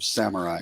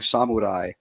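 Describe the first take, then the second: First: It is pronounced the English way. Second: It is pronounced the Japanese way. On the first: It is the form English listeners expect. "you expect samurai" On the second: It matches how the word is said in Japanese. "the correct pronunciation of all the Japanese words"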